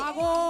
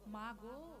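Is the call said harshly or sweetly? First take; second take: harshly; sweetly. First: The call is loud and bleating, like crying. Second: The call is soft and sweet in tone. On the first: The speaker calls it wrong. "দুদিনকার বাচ্চা গুলো চিল্লাচ্ছে না যেমন করে, ওইভাবে নয়।" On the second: The speaker calls it right. "মিষ্টি করে ডাকতে হয়।"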